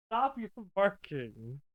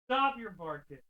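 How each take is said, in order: First: Scolding that breaks into a laugh, slow. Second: Said in the usual way. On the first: Real, not acted. Streamer laughing while telling her dog to stop barking. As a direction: try to scold but crack up.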